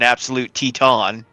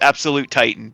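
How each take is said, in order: First: The name has a pedantic, stricter pronunciation. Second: The name has its everyday pronunciation.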